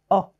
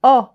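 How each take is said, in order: First: "O" said as a closed o, lips rounded like in "beau". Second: "O" said as an open o, mouth wide like in "note". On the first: Teacher showing pupils the closed O. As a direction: give "O" closed and rounded, as in "drôle". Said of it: "c'est le O fermé". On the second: Teacher showing pupils the open O. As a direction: give "O" open, as in "porte". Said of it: "C'est le O ouvert". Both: Shown as a demonstration.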